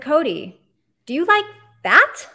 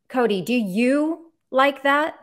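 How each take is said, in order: First: The stress is on "that". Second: The stress is on "you".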